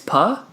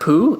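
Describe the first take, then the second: First: The vowel is short, like u in cup. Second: The vowel is long, like oo in food. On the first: The speaker calls it right. "it's puh?" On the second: The speaker calls it wrong. "It's not poo"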